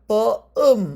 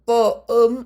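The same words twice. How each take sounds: No difference in how they are said.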